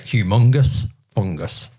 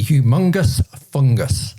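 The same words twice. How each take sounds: First: Humongous fungus in a northern British accent, lower and slower. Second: Said in the usual way. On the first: Shown as a demonstration. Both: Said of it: "when said with a northern British accent".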